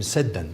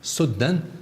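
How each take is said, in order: First: The first vowel is an a sound. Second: The first vowel is an u sound. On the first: "could be said as said"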